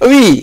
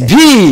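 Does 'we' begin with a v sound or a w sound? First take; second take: w; v. First: The word begins with a w sound. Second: The word begins with a v sound. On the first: This is how the native teacher wanted it. The speaker calls it right. "It is উই" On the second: This is how the learner said it. The speaker calls it wrong. "It is not ভি"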